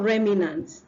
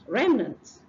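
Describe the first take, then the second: First: It has an extra vowel in the middle. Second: It has no extra vowel in the middle. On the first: The speaker calls it wrong. "Don't put your personal I" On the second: The speaker calls it right. "It's remnant"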